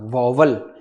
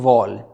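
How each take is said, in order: First: The word is said with two syllables. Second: The word is said with one syllable. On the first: The speaker calls it wrong. "ये वॉवल जो है वो बिल्कुल क्या है, गलत pronunciation है" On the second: The speaker calls it right. "वो हम लोग कहते हैं वॉल"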